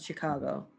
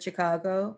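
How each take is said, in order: First: The first sound is an sh sound. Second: The first sound is a ch sound. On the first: "pronounce it as an SH sound" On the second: "more with a CH sound"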